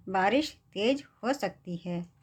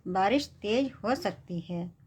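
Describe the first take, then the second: No difference in how they are said.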